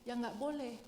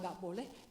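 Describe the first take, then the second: First: "ya nggak boleh" with a settled falling close on "boleh"; firm statement. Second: "nggak boleh" said lower and softer with a questioning rise. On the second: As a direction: ask "nggak boleh" lightly, as if doubting it. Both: Shown as a demonstration. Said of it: "apa yang Tuhan bilang".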